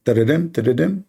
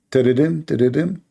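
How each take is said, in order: Both takes have the same delivery.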